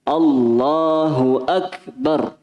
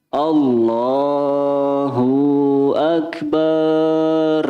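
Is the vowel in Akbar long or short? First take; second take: short; long. First: The vowel in Akbar is kept short. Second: The vowel in Akbar is drawn out long. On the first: The speaker calls it right. "Akbar itu tidak ada panjangnya" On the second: The speaker calls it wrong. "jangan terlalu fokus ke nada"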